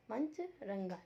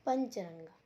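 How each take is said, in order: First: पंचरंगा broken into two parts, पंच and रंगा; careful pronunciation. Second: Said in the usual way. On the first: Shown as a demonstration. Teacher modelling पंचरंगा for pupils, split into its two parts. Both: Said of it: "इसका शुद्ध उच्चारण आपको करना है".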